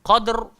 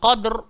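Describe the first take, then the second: Both takes have the same delivery.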